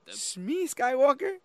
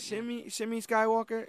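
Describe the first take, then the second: First: The first name is said as one syllable. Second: The first name is said as two syllables. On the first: "Am I saying that right?" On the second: "I think I always say Shimmy"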